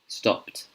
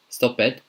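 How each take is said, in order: First: The ending sounds like a voiceless t. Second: The ending does not sound like a t. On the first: The speaker calls it right. "this one is pronounced stopped, t, t" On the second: The speaker calls it wrong. "I've heard it being pronounced"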